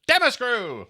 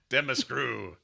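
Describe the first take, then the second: First: The word is yelled loudly like a battle cry. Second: The word is said at a normal, calm level.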